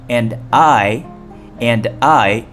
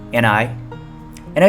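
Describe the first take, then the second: First: The words are said separately and fully. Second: The words are reduced and linked together.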